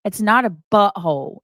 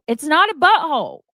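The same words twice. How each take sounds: First: Said in the usual way. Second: Higher and louder, punching NOT; exasperated louder repeat. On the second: Real, not acted. Streamer repeats to chat it's a commercial, exasperated and louder. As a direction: hit "not" hard, fed up.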